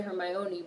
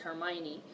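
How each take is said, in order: First: Hermione said as her-MY-oh-nee, the O fully voiced; reading "Hermione" with a clear O in the middle; pronounced with the O sound. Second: Hermione said as her-MY-nee, the O swallowed; "Hermione" with the middle O dropped; chat's pronunciation. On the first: Streamer saying how she'd pronounce it, her-MY-oh-nee. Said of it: "I wanna say Hermione". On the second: Repeating chat's version to viewers, her-MY-nee. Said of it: "y'all are saying it's Hermione". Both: Shown as a demonstration.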